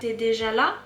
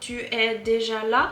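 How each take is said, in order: First: "Tu es" is contracted to a single syllable. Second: "Tu es" is said as two full syllables.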